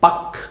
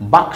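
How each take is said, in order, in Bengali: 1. K-এর আগে L ধ্বনিটি নীরব থাকে। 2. K-এর আগে L ধ্বনিটি নীরব থাকে।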